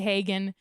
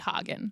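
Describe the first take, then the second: First: The name is said with an American pronunciation. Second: The name is said with a German pronunciation. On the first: This is how the family actually says it. "we say Hagen" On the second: This is the technically correct original form. "it might technically be Hagen"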